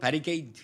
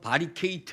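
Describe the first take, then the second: First: The word is said with an English accent. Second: The word is said with a Korean accent. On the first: "영어로 발음하면 바리케이트 이렇게 돼야 돼요" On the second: "한국말로 하면 바리케이트 이러잖아요"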